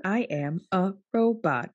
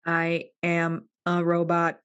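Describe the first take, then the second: First: Flat robot voice; even, mechanical robot syllables. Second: Slow even robot syllables; even machine gun syllables. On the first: Pretend. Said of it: "Talk like a human, not a robot". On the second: Shown as a demonstration. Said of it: "You gotta say it like this".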